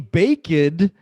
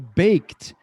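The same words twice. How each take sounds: First: The ending is said as an extra syllable. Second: The ending is a plain t with no syllable. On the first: The speaker calls it wrong. "tem um som muito mais suave, muito mais agradável. Mas não é o correto" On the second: The speaker calls it right. "É baked"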